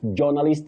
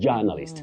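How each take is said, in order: First: The first syllable is said like 'jo'. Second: The first syllable is said like 'ja'. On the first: The speaker calls it wrong. "not journalist that we commonly hear around us" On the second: The speaker calls it right. "Just like when you say a journalist"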